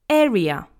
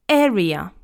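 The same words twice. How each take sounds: No difference in how they are said.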